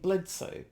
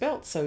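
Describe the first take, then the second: First: The name is said with an l and ds sound. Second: The name is said with an l and ts sound. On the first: The speaker calls it right. "you mean Bledsoe?" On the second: The speaker calls it wrong. "he even pronounced the family name wrong. I think he called it um, Beltso"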